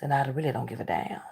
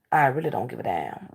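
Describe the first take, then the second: First: Whispered under the breath. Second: Said in the usual way. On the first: Real, not acted. Telling viewers about her family, whispered. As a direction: hush it as a private aside. Repeats the line twice.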